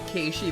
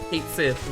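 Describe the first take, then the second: First: The name sounds like 'Kay-shee', without a th. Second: The name sounds like 'Kate Sith', with a th. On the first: This follows the Gaelic pronunciation. The speaker calls it right. "that's the Gaelic pronunciation" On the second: This follows the English spelling. The speaker calls it wrong. "which is wrong"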